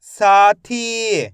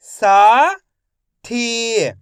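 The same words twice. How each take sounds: First: साथी joined without a pause; slow, loud साथी as one drawn-out word; blended word. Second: साथी split as सा, pause, थी; syllable by syllable. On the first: Teacher blending साथी for young readers, joined up. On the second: Teacher sounding out साथी for young readers, syllable by syllable. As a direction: sound out साथी in two long pieces, first rising. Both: Shown as a demonstration. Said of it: "तो मिलके बन जाएगा".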